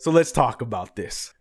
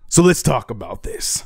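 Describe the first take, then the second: First: It is said in a plain, normal way. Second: It is said in a more dramatic way.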